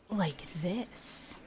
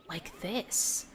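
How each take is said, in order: First: Hushed, breathy half-yell; whisper yelling. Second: Soft, breathy mock yell; whisper yelling. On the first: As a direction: yell it under your breath, almost whispering. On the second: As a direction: push a whisper like a shout. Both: Shown as a demonstration. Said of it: "that half whisper yell".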